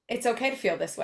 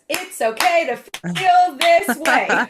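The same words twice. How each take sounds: First: It is said in a plain, ordinary way. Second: It is said with strong, childlike conviction.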